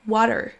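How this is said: It is said in an American accent.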